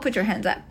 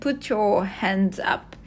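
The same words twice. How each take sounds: First: It is said fast, words run together. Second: It is said at a slower, careful pace.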